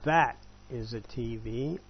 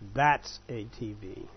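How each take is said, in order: First: 'That is' is said as two full words. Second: 'That is' is shortened into one syllable.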